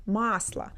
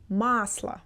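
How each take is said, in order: No difference in how they are said.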